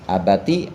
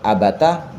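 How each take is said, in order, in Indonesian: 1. Kata ini berakhir dengan vokal 'i' pendek. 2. Kata ini berakhir dengan vokal 'a' pendek. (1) "boleh dibaca kasroh" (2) "boleh dibaca fathah"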